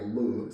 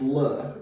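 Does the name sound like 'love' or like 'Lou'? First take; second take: Lou; love. First: The name is said with a long 'oo' vowel. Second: The name is said with a short 'uh' vowel. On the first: The speaker calls it wrong. "I heard some of the people uh, pronounce this their loves as like Lou" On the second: The speaker calls it right. "So this is it's love. It's not Lou"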